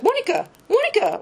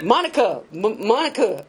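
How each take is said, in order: First: Monica said high with a falling call, the way he said it; wrong Monica. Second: Monica said at her usual pitch, falling. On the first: Retold or imitated. Boyfriend calling her name wrong at the meeting, high falling call. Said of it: "he said my name wrong". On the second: Shown as a demonstration. Retelling how the boyfriend actually said Monica, plain and falling. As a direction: say Monica level and falling as he did. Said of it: "He didn't say it the way I just did".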